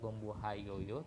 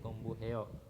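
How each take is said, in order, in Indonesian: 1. Akhiran itu diucapkan lengkap, tidak dikontraksi. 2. Akhiran itu dikontraksi menjadi satu suku kata. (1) "lebih enaknya jangan dibaca"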